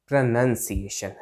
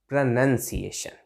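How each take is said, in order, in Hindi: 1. दूसरा अक्षर 'nun' जैसा सुनाई देता है। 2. दूसरा अक्षर 'nun' जैसा सुनाई देता है।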